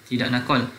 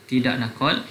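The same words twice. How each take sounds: The two takes are said the same way.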